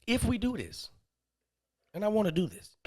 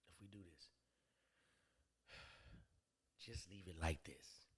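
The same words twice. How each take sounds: First: Raised pitch for her voice; imitated woman's proposition. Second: Hushed proposition. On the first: Woman laying out terms to the man, imitated proposition. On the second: Retold or imitated. Woman laying out terms to the man, hushed proposition.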